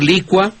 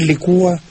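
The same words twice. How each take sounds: First: "licua" as LI-cua, two syllables; stress on LI. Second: "licúa" as li-CÚ-a, three syllables; stress on the U. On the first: Host tells the maestro a preference, "licua" stressed on LI. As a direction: hit the first syllable of "licua". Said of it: "yo prefiero". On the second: Maestro cites what the Academy allows, "licúa" stressed on U. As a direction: hit the ú in "licúa". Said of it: "le da permiso a algunos". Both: Shown as a demonstration.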